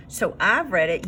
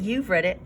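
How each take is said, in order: First: I've leaned on, set against you; stress on I've. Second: You've leaned on, answering I've; stress on you've. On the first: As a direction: tap the word I've to contrast. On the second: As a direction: tap the word you've to contrast. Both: Shown as a demonstration.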